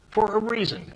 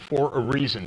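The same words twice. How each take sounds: First: For a reason, jumped up high with weight on for; emphatic repeat. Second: Said in the usual way. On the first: Real, not acted. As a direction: hammer home For a reason as a pointed repeat.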